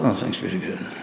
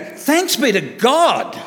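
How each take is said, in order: First: It is mumbled flatly without enthusiasm. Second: It is said clearly with real enthusiasm.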